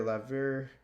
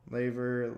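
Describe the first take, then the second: First: Laver said as "LAV-er"; short-a laver. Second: Laver said as "LAY-ver"; long-a laver. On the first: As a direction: say laver with the a of "lad". Word list, tries two pronunciations. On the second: Word list, second try at word. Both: Real, not acted.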